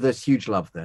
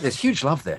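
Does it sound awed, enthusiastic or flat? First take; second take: flat; enthusiastic. First: It is said flatly, without enthusiasm. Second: It is said with lively enthusiasm.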